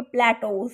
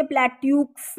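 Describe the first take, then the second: First: प्लेटोस ending in "tohs", no K; silent x. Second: प्लेट्यूक्स with a "yooks" ending; read as spelt. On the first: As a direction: say प्लेटोस with a long "o" and a plain S. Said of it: "इसे हम बोलेंगे". (प्लेटोस, अंत में "टोस", "क" के बिना) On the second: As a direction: say प्लेट्यूक्स with "tyoo" and a sounded K-S. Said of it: "ये इसे प्लेट्यूक्स नहीं पढ़ना". (प्लेट्यूक्स के अंत में "ट्यूक्स" बोलें) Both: Shown as a demonstration.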